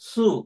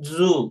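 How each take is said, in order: First: The word begins with an s sound. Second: The word begins with a z sound. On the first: "వీళ్ళు సు అంటారు" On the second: "మామూలుగా మనం ఇంగ్లీష్ నేర్చుకున్న వాళ్ళము అయితే జూ అంటాం కదా"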